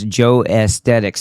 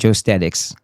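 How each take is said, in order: First: The second part is said as 'aesthetics'. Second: The second part is said as 'statics'. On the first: The speaker calls it right. "So it's Joe Aesthetics still" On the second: The speaker calls it wrong. "It's not Joe Statics"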